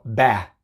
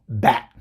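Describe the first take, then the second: First: The word ends on the vowel without any T. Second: The word ends with a glottal stop for T. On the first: The speaker calls it wrong. "Si digo nada más la B y la A, digo ba" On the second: The speaker calls it right. "¿Escuchaste la oclusión glotal?"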